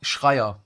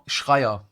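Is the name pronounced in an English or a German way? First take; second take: German; German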